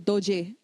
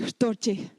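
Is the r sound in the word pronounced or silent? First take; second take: silent; pronounced. First: The r sound is silent. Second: The r sound is clearly pronounced. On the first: This is how people near Lhasa say it. "You go to Lhasa, there are a lot of people who say doje" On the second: This is how people farther away say it. "they'll start to pronounce that ra"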